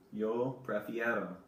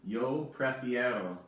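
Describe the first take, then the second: No difference in how they are said.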